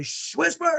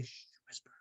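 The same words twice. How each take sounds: First: High-pitched shush, voiced instead of whispered; high, drawn-out kid voice; imitated defiant child. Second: Soft, voiceless hushing whisper; hushed parent's whisper; whispered shush. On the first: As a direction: mimic a kid refusing to whisper. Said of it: "when he finally whispered". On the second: Retold or imitated. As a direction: shush gently, then whisper the word.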